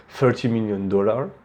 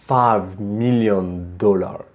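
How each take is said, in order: First: Said in the usual way. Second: "five million dollar" drawn out slowly, each word given weight; slow and weighty. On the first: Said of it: "which one sounds the more strong". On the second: Shown as a demonstration. Teacher showing students a slow, weighty "five million dollar". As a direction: take your time on "five million dollar". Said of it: "also take your time when, to say s-, a c-, c-, certain thing".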